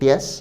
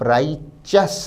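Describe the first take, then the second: First: The ending is pronounced with a 't' sound. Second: The ending is pronounced with a 'ch' sound. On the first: The speaker calls it wrong. "ना कि टियस" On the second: The speaker calls it right. "शब्द के pronunciation या उच्चारण पर भी ध्यान दें।"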